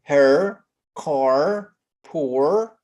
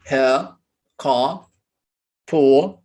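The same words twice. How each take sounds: First: "Her, car, poor" with the final R clearly pronounced, American style; American R sounded. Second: "ها، قا، بو" with no R at the end, British style; British R dropped. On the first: Teacher demonstrating American R endings to students. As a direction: roll through the R at the end of "Her", "car", "poor". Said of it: "بينطق ال R عادي جدًا". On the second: Teacher demonstrating British R-less endings to students. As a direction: drop the final R: "ها" for her, "قا" for car, "بو" for poor. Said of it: "like that". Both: Shown as a demonstration.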